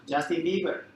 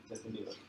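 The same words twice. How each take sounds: First: Excited name. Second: Softer echo of the name; quiet repeat. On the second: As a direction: say it again under the breath. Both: Real, not acted. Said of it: "Who do you know now?".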